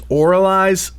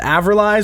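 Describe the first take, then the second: First: The V is sounded as a vowel. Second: The V is sounded as a consonant.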